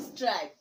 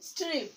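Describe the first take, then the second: First: স্ট্রাইপ with an "eye" glide, as in "stripe"; long vowel. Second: স্ট্রিপ with a short i, as in "strip"; short vowel. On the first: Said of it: "vowel ই যোগে". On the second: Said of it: "vowel ই ছাড়া উচ্চারণ". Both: Shown as a demonstration.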